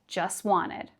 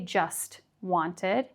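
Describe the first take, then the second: First: The T sound in just is dropped. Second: The T sound in just is pronounced. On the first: The speaker calls it right. "but just wanted" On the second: The speaker calls it wrong. "We don't say just wanted"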